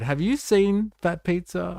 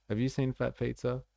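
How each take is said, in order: First: Excited question to viewers. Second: Said in the usual way. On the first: Real, not acted. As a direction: question pitched much higher, rising on you. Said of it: "I wonder if it made it across the ditch". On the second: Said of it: "Uh, Voltaire, I wonder".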